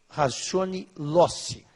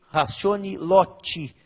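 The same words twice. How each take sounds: First: It is said with a Portuguese-style pronunciation. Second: It is said with an Italian-style pronunciation. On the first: "a gente usa a pronúncia aportuguesada" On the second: "Os que usam a pronúncia italianada diriam"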